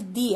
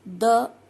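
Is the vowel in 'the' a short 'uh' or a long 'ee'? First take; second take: long ee; short uh. First: The word ends in a long 'ee' vowel. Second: The word ends in a short 'uh' vowel. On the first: The next word starts with a vowel. "एक जगह मैंने इसको दी पढ़ा है" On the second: The next word starts with a consonant. "मैंने द को एक जगह द पढ़ा है"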